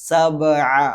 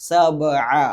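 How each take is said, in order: The two takes are said the same way.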